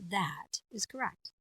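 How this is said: The pitch goes down, then comes up.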